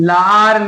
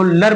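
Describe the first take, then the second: First: The vowel is a full long 'aa'. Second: The vowel is a short reduced sound. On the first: The speaker calls it wrong. "लार नहीं" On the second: The speaker calls it right. "लर बोलेंगे"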